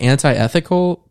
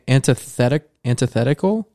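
First: It is said as anti plus ethical. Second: It is said with a th after anti. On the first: The speaker calls it wrong. "It looks like anti-ethical" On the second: The speaker calls it right. "but it's antithetical"

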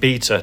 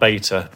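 First: The word is said in a non-American way. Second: The word is said in an American way. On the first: The speaker calls it right. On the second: The speaker calls it wrong. "not beta"

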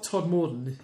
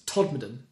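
First: The name is said like 'Todd Morton'. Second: The name is said like 'Todmorden'. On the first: The speaker calls it wrong. "It's not Todd Morton" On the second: The speaker calls it right. "it's Todmorden"

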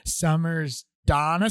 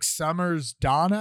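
First: It is said even more slowly. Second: It is said at normal speed.

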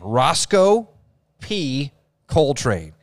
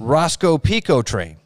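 First: The name is said slowly and clearly. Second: The name is said fast and run together.

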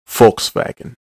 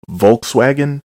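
First: The first letter is an F sound. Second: The first letter is a V sound. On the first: The speaker calls it right. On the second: The speaker calls it wrong.

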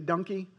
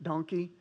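No difference in how they are said.

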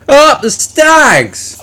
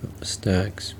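First: It is said with lots of energy. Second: It is said flatly, with little energy.

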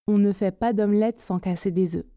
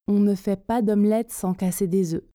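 The two takes are said the same way.

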